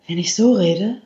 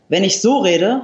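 First: The voice is plain with very little twang. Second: The voice is narrowed, bright and twangy. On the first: "habe ich sehr wenig Twang" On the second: "habe ich etwas mehr Twang"

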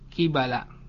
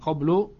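First: It is said qibala, ending in -ala. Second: It is said qablu, ending in -u. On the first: The speaker calls it right. "kibala dibaca dengan mengkasrohkan qaf dan memfathahkan ya, memfathahkan ba" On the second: The speaker calls it wrong. "bukan qablu"

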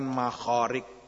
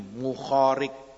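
First: The first vowel is an a sound. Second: The first vowel is a u sound. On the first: The speaker calls it wrong. "bukan Makhariq" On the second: The speaker calls it right. "Dengan domahnya mim"

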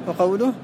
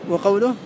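Both takes have the same delivery.

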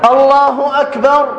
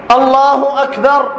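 No difference in how they are said.

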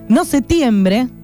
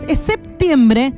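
First: The p sound before the t is dropped. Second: The p sound before the t is pronounced. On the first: The speaker calls it wrong. "Detesto a la gente que dice septiembre, que no está mal dicho" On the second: The speaker calls it right.

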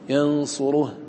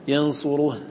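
No difference in how they are said.

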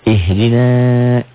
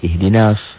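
First: The final vowel is held long. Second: The final vowel is short, linked to s. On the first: "Ihdina betul panjang" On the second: "kalau disambung jadi ihdinas, jadi pendek"

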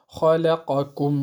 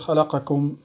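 First: The q vowel gets its full length. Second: The q vowel is clipped short. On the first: The speaker calls it right. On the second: The speaker calls it wrong.

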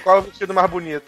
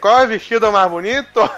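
First: It is said without a gaúcho accent. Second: It is said with a gaúcho accent. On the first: The speaker calls it wrong. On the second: The speaker calls it right.

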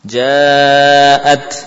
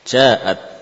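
First: The long vowel is held for four beats. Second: The long vowel is held for two beats. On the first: The speaker calls it right. "Kita pakai empat dulu lah" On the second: The speaker calls it wrong. "Andai kata seorang membaca dengan dua rakaat misalkan"

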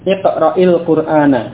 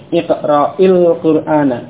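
No difference in how they are said.

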